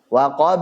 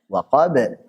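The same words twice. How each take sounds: First: The final echo is drawn out long. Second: The final echo is short and clear. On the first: "jadi panjang gitu" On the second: "yang kita pegang untuk sementara ini ya tadi yang lebih jelas"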